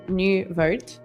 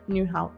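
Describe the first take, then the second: First: The second part begins with a V sound. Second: The second part begins with an H sound. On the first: This is how the family has always said it. The speaker calls it wrong. "my family has always said New Vote" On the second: This is how Dutch speakers say it. The speaker calls it right. "it's actually New Hout"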